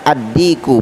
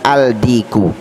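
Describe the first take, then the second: First: The article merges into a doubled 'd' sound. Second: The article keeps a clear 'l' before 'd'. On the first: The speaker calls it right. "Jadi cara membacanya ad-diku" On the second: The speaker calls it wrong. "bukan al-diku"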